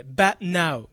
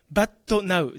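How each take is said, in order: First: But now as "bat-nau", t stopped; no added vowel. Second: But now said as "ba-tto na-u"; katakana added vowel. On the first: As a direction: join "but now" with no "to" between. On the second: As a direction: put a full "to" inside "but now". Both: Shown as a demonstration. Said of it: "じゃなくて".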